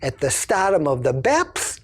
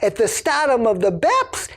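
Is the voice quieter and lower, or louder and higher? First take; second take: quieter, lower; louder, higher. First: It is said at a normal loudness and pitch. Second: It is said louder and at a higher pitch.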